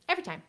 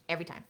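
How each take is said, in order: First: Higher, bright emphasis; high excited repeat. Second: Said in the usual way. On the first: Real, not acted. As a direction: toss it up playfully. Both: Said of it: "repeated line".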